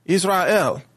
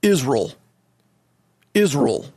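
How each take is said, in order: First: Israel as iz-ra-EL, pitched up, each part clear; careful three-beat Israel; three syllables. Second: Israel squashed to IZ-RULL; mock senator's Israel, just two beats, iz-rull; two-syllable pronunciation. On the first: Shown as a demonstration. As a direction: say Israel with a full RA-EL ending. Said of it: "That's three syllables". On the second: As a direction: swallow the middle of Israel into a dull RULL. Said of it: "and it sounds like this".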